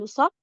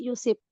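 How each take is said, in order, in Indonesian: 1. Vokal setelah bunyi sh adalah a. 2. Vokal setelah bunyi sh adalah i. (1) "dengan memfathahkan shad" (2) "mengkasrohkan shad"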